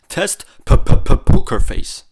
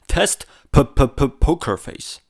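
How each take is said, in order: First: The p sounds pop with bursts of air. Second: The p sounds are soft with no popping. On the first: The speaker calls it wrong. "without any windscreens whatsoever" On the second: The speaker calls it right. "with the windscreen I put onto the internal microphones"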